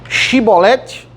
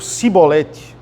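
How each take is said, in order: First: The word begins with a 'sh' sound. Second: The word begins with an 's' sound. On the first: "muda esse sh e os" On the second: "muda esse sh e os"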